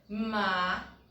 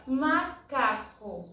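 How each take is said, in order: First: "macaco" as ma, ca, co with long gaps; syllable by syllable. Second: Said in the usual way. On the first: Shown as a demonstration. Teacher locating the penultimate syllable, syllable by syllable. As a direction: separate each syllable of "macaco" with a clear pause. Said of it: "ele é a penúltima sílaba". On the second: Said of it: "Quando nós observamos, por exemplo".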